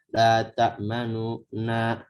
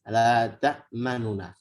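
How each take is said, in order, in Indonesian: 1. Frasa "la ta'manuna" dipanjangkan terlalu lama. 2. Frasa "la ta'manuna" diucapkan dengan cepat tanpa jeda. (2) "Dan harus cepat"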